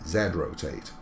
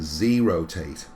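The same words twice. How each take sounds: First: The letter is said 'zed', British style. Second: The letter is said 'zee', American style.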